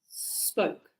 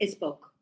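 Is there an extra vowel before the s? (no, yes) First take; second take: no; yes. First: The word starts directly with the s sound. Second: An extra vowel sound comes before the s. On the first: The speaker calls it right. "It's spoke. ... No E" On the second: The speaker calls it wrong. "No, it isn't a spoke"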